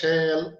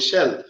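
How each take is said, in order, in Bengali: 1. শব্দটি ধীরে ধীরে টেনে বলা হচ্ছে। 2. শব্দটি দ্রুত, স্বাভাবিক দৈর্ঘ্যে বলা হচ্ছে। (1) "এইভাবে বলতেছেন কেন শ্যাল এটা বেশি সময় লাগতেছে? নো, রং।" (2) "উচ্চারণ করবেন যেটা যেভাবে উচ্চারণ করেন সেভাবে"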